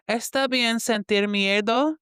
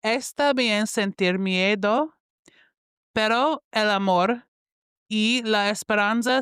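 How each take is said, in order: First: Miedo slurred toward mierdo; first shaky try at miedo, sounding like mierdo; Spanish read slowly, miedo blurred; mispronounced Spanish. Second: Está bien sentir miedo read slowly, miedo clearly as mi-E-do; slow, deliberate Spanish with a clean miedo; careful Spanish reread. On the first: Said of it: "let me repeat that". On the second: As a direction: read the Spanish again, taking care on miedo. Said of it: "let me read that again". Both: Real, not acted.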